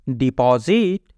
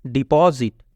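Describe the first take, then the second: First: Slow careful repeat. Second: Said in the usual way. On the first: Shown as a demonstration. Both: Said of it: "teacher repeats word".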